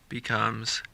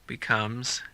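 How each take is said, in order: The two takes are said the same way.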